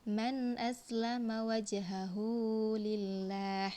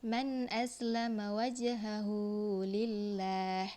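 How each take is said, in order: The two takes are said the same way.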